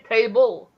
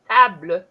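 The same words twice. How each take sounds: First: It is said with an English pronunciation. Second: It is said with a French pronunciation. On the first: "You pronounce it in a um, an English way" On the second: "it's pronounced differently because it's French"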